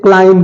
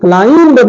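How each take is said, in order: First: The word ends on m with no b. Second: The word ends with an audible b sound. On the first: The speaker calls it right. "क्लाइम बोलते हैं" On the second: The speaker calls it wrong. "क्लाइंब नहीं बोलते"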